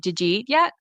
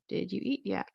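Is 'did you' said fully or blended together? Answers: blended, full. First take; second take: blended; full. First: The first two words blend into one j sound. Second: The first two words are said separately and fully. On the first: "someone might say" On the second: "When they want to ask"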